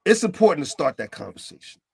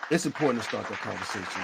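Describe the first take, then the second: First: Said in the usual way. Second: Softer and lower, letting it sink in; softer repeat. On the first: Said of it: "repeated for emphasis". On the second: Shown as a demonstration. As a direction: quietly restate the point.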